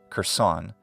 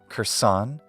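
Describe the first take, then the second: First: The stress is on the second syllable. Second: The stress is on the second syllable.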